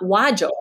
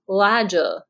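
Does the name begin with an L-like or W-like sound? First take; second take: W-like; L-like. First: It starts with a W-like sound, lips rounded. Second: It starts with an L-like sound, lips unrounded. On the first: The lips replace the tongue for the R. "not Wajo" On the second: The tongue stays low instead of rising back. "He wasn't using his lips. He wasn't saying W. His tongue was just low in his mouth"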